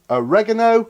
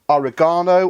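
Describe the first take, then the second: First: It is said in an American accent. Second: It is said in a non-American accent.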